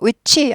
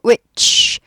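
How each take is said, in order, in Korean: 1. ch 뒤에 울리는 모음이 온전히 붙어요. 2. ch에서 끝나고 뒤에 모음이 없어요. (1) "위치 아니고" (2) "치 하고 목소리가 안 나야지 맞아요"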